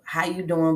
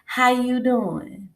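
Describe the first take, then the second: First: It sounds cool, guarded and unimpressed. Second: It sounds overly sweet and fake-friendly.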